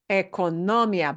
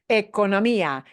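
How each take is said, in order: First: The stress falls on the syllable 'no', not 'mi'. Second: The stress falls on the syllable 'mi'. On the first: The speaker calls it wrong. "but that is not the way the word is pronounced" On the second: The speaker calls it right. "you got to punch this sound harder than everything else"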